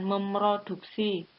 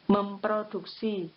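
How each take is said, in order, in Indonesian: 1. Bunyi p setelah "mem" dihilangkan. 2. Bunyi p setelah "mem" jelas terdengar. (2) "Yang benar adalah memproduksi"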